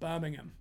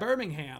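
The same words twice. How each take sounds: First: The last syllable is a weak 'um'. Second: The last syllable is a full 'ham'. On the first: The speaker calls it right. "There we go. That was good" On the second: The speaker calls it wrong.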